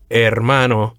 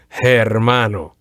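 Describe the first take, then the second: First: The word starts with no h sound. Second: The word starts with an h sound. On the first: The speaker calls it right. "you would say" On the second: The speaker calls it wrong. "as opposed to"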